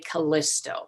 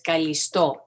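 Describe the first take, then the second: First: The name is pronounced the English way. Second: The name is pronounced the Greek way. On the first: "In English, sometimes people say Callisto" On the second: "the Greek uh, pronunciation"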